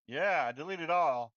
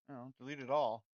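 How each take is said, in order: First: Louder and slower on "delete it all"; emphatic decision. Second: Said in the usual way. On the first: Real, not acted. Developer deciding to wipe the project files, firmly.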